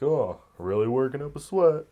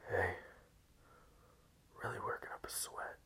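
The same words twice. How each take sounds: First: Higher, louder joshing remark; jokey out-loud compliment; casual gym banter. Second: Hushed, voiceless creep at the gym; very soft creepy come-on; creepy whisper. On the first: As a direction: toss it out loudly with a friendly nudge. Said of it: "where, like, you say". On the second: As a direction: whisper it close in her ear. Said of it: "Not Creepy Unless You Whisper It". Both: Acted.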